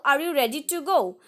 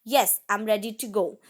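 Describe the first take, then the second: First: "go?" said as a clear question; teacher models a yes-no question; asking a question. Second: "Yes" said first with a falling, settled answer tune; teacher models the reply. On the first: Teacher reading an example question to students, then the tune. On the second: Teacher reading the matching answer to students, then the tune. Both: Shown as a demonstration. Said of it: "For example".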